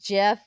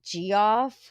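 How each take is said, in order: First: The name is said as one syllable, Jeff. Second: The name is said as two syllables, G-off. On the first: The speaker calls it right. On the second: The speaker calls it wrong.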